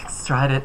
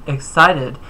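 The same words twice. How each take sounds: First: Excited slurred as "exstrided" with an extra r; mispronounced. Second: Excited said cleanly as "ik-SY-tid"; corrected word. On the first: Vlogger fumbling a word mid-sentence, garbled excited. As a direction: trip over excited, saying "ik-STRY-did". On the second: Vlogger correcting his slip, clear careful excited. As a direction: fix it, saying excited carefully. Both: Real, not acted. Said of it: "I said excited".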